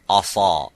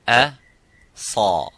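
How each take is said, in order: First: The opening hamza sounds heavy and full-mouthed. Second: The opening hamza sounds light and empty-mouthed. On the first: The speaker calls it wrong. "That's wrong" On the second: The speaker calls it right. "You would say a sa"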